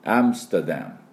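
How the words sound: It is said as three English syllables. The speaker calls it right. "3 音ですね"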